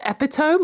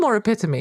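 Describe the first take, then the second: First: "epitome" as EP-i-tome, rhyming with home; EP-i-tome for "epitome", pitched up; misread epitome. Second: "epitome" as uh-PIT-uh-mee; standard epitome. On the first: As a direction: say "epitome" as three syllables, silent final e. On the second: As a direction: say "epitome" as four syllables, stress on PIT. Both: Shown as a demonstration. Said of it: "I still haven't worked out".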